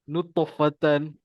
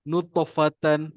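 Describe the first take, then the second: Both takes have the same delivery.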